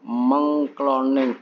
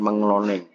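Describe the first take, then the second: First: The k sound after meng is kept. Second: The k sound after meng is dropped. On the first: The speaker calls it right. "mengcloning bukan mengloning" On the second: The speaker calls it wrong. "bukan mengloning"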